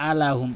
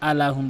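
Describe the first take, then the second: No difference in how they are said.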